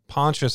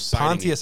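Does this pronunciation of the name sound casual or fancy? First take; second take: casual; fancy. First: The name is pronounced in a relaxed, casual way. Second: The name is pronounced in a refined, fancy way. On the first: It is the way to say it among friends. "Pontius is when you're with your friends" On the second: It is the posh way to say it. "Pontius is pinky up"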